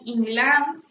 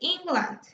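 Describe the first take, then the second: First: The stress is on a later syllable. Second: The stress is on the first syllable. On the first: The speaker calls it wrong. "instead of saying England" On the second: The speaker calls it right. "the first syllable will, uh, will be the one that will be receiving the stress"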